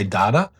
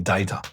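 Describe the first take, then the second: First: It is said in an Australian accent. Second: It is said in a Scottish accent.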